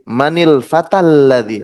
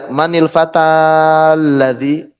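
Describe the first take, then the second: First: The a of fata is short, linked on. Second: The a of fata is held long. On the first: The speaker calls it right. "tapi manil fatal ladzi langsung fatal ladzi" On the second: The speaker calls it wrong. "Jadi nggak dibaca manil fatal ladzi, enggak"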